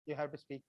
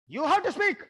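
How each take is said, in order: First: Dropped low and much softer; soft plea. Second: Raised, forceful command; loud command. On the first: Facilitator coaxing shy audience to speak, soft and low. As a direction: coax gently, almost under the breath. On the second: Facilitator pushing shy audience to speak, loud and forceful. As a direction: insist they speak, much louder and higher. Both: Shown as a demonstration. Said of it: "look at my gesture".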